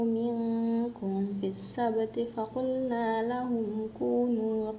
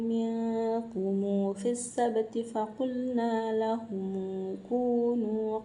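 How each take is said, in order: First: The final m is closed with no added vowel. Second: The final m is followed by a linking vowel. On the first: This is the common everyday reading. "yang sering kita baca itu" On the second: This follows a particular classical reading tradition. "cara baca Imam Ibnu Katsir itu ... mim sukun itu diganti dengan silah"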